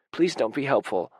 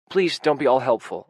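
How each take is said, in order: First: Breathless gasped plea; gasping plea to his partner, close to tears. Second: Sudden loud plea; blurted out. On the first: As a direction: gasp it out through tears. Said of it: "I gasp". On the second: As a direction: blurt it out in a rush. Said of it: "I blurt out". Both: A narrator's reading.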